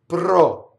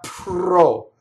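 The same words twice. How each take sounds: First: The P has no puff of air. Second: The P has a puff of air. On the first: The speaker calls it right. "So it's as close to B as you can make it" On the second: The speaker calls it wrong. "not with a puff of air going through it"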